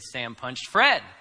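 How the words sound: The stress is on Fred.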